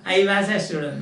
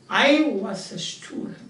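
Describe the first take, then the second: First: The word 'was' starts with unrounded lips. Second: The word 'was' starts with rounded lips. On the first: The speaker calls it wrong. "Not the I was a student, not like that" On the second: The speaker calls it right. "That's what you should say"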